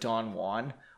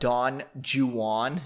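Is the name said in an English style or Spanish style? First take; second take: Spanish style; English style. First: The name is said in a Spanish way. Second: The name is said in an anglicized way. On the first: This is the version everybody else uses. The speaker calls it right. "instead of Don Juan" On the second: This is the version one person insisted was proper English. The speaker calls it wrong. "She said should be pronounced Don Juan"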